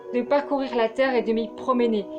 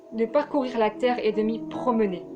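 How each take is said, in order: The two takes are said the same way.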